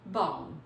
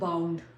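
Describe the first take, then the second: First: The final d sound is dropped. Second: The final d sound is clearly pronounced. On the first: The speaker calls it right. "डी को drop किया तो हमारी pronunciation कैसे हो जाएगी" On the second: The speaker calls it wrong. "हम कहते हैं बाउंड"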